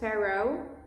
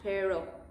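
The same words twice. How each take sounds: First: The word has an English-style gliding O vowel. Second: The word has a short, pure Spanish O vowel. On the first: The speaker calls it wrong. "English speakers have this tendency to sound pero" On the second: The speaker calls it right. "that sounds a little more Spanish"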